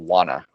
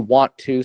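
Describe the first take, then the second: First: It is said as one short, reduced word. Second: It is said as two full, separate words. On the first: "We say wanna" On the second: "We don't say want to so much in everyday conversation"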